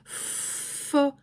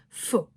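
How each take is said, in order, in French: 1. La syllabe est étirée lentement. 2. La syllabe est prononcée courte et rapide. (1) "passer du fo" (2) "à fo"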